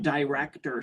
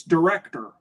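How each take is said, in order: First: "director" with a long DIE first syllable; corrected pronunciation. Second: "director" with a short, reduced first syllable; mom's pronunciation. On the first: Mom mimicking the speaker's word, "director" as "die-rector". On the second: Mom correcting the speaker, "director" as "duh-rector". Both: Retold or imitated. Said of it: "laughs at me when I say director".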